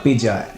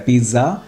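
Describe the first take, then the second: First: The middle consonant is a 'j' sound. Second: The middle consonant is a 'dz' sound. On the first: "so they say ja" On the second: "we just directly converted it into za"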